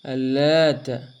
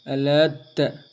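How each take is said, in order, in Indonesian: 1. Bunyi t-nya ditahan dan ganda. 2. Bunyi t-nya ditahan dan ganda.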